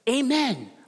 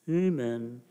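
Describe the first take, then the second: First: The word is said loudly and forcefully. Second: The word is mumbled quietly and weakly. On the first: The speaker firmly affirms belief in the prayer. The speaker calls it right. "We need to be forceful" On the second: The speaker does not really affirm the prayer. The speaker calls it wrong. "we shouldn't mumble it"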